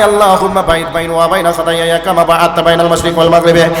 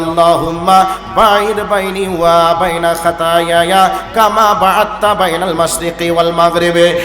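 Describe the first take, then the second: First: It is recited quickly and loudly, in a rush. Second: It is recited slowly and softly, with feeling. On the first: The worshipper seems in a hurry to finish. The speaker calls it wrong. "এত জোরে বলে" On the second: The worshipper prays with humility and devotion. The speaker calls it right. "ভক্তি ভরে খুশু খুশু চিত্তে"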